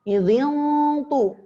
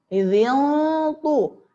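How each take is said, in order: Both takes have the same delivery.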